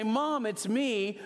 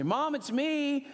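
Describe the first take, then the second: First: High, slow call to mom; a hint of calling out to mom. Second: Calling out high and slow into the house; a hint of calling out to mom; raised voice. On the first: Calling out to his mother on arrival, high and slow. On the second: Calling out to his mother so he doesn't scare her, high and drawn out. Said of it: "I always raise my voice when I enter".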